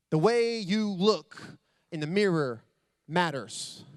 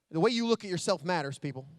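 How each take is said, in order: First: "The way you look in the mirror matters" dragged out slowly, each phrase weighted; slow right down and lean on "way"; slow emphatic restatement. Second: Said in the usual way. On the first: Shown as a demonstration. Driving home his point to the audience, slow and weighty.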